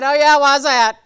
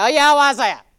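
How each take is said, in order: First: Louder mock husband, dry and doubtful; husband's dry reply. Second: Loud mock husband, dry and doubtful; husband's dry reply. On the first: Husband teasing his wife with doubt, mock voice. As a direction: play the skeptical husband. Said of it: "He said". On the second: Wife imitating husband's doubtful reply. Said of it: "That's how he says".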